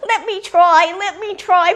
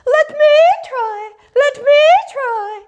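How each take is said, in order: First: High, loud, eager little bird; pleading young grebe. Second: Very high, loud loon call; Lady Loon. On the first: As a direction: beg like a youngster desperate for a turn. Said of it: "The young grebe came forward and he said". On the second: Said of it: "Then Lady Loon came forward". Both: A narrator's reading.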